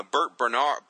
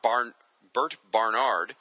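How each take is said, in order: First: Said in the usual way. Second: "Bert Barnard" slowed and spelled out carefully; correcting to "Barnard" deliberately; careful correction. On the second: Real, not acted.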